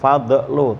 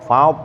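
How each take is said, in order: First: The final consonant bounces with an echo vowel. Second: The final consonant is held without release. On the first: The speaker calls it wrong. "jangan sampai mantul ya Pak, bukan fadlu" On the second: The speaker calls it right. "Ujung lidahnya ditahan geraham atas. Bo, fad gitu ya"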